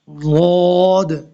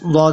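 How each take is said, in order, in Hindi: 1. आवाज़ समय के साथ खींचकर बोली जाती है। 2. आवाज़ छोटी और तेज़ी से बोली जाती है। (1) "इसमें अब टाइम लग रहा है" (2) "ये नहीं है कि वाद बस वाद अदा हो गया, नहीं ऐसे नहीं है"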